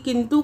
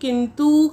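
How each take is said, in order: First: The final u vowel is short. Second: The final u vowel is long. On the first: The speaker calls it right. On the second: The speaker calls it wrong.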